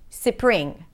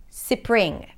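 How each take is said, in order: No difference in how they are said.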